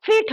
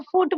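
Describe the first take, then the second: First: ফিট said with a clear ee vowel, like feet; corrected pronunciation. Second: ফুট said with a u vowel, foot-like; wrong vowel. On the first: Shown as a demonstration. Tutor to student, correcting the word to ফিট. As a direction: say ফিট with a long i, not ফুট. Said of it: "ফুট না, ফিট". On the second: Real, not acted. Tutor to student, slipping into the wrong ফুট. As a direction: say ফুট with the rounded u sound, the slip. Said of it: "এটা ভুল হয়ে গেছে উচ্চারণটা".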